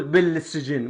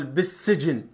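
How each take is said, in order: First: بالسجن with a plain single س; بالسجن read bil-sijin, no gemination; without the shadda. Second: بالسجن with a doubled س; بالسجن with the l swallowed into a doubled s; with the shadda. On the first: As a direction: say بالسجن with the l clear and no doubled s. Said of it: "مرات ما أقول بالسجن". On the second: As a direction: say بالسجن as bis-sijin, l dropped, s doubled. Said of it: "إذا أقول بالسجن يعني أحط شدة". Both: Shown as a demonstration.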